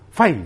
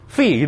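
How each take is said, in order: First: The vowel is a diphthong 'eye' sound. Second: The vowel is a plain 'ee' sound. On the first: The speaker calls it wrong. "Sampai membacanya apa? Fai gitu ya. ... Enggak bisa" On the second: The speaker calls it right. "fi gitu ya"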